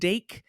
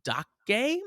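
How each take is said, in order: First: The word is said like English 'dake'. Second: The word is said with Japanese-style syllables. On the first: The speaker calls it wrong. "I was pronouncing it" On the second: The speaker calls it right. "apparently it's like"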